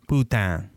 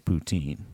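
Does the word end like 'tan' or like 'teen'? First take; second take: tan; teen. First: The word ends with a nasal 'tan' sound. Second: The word ends with a plain 'teen' sound. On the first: It follows a French, Cajun-style reading. "it's like tan" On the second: It follows a plain Canadian reading. "our northern brothers and sisters would just say poutine"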